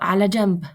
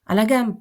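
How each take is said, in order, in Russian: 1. Слово произносится со звуком j. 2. Слово произносится с твёрдым звуком g.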